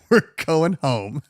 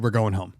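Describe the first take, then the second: First: Laughing, slower. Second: Said in the usual way. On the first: Retold or imitated. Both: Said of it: "and I said".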